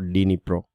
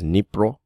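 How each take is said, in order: First: The word starts with a D sound. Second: The word starts without a D sound. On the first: The speaker calls it wrong. "It is not Dnipro" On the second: The speaker calls it right. "you don't pronounce the D. So it is Dnipro"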